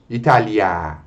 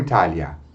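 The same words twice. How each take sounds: First: The final vowel is held noticeably longer. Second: The final vowel is short and clipped. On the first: The speaker calls it right. "essa vogal deve ser pronunciada de modo um pouco mais prolongado" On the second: The speaker calls it wrong. "e não"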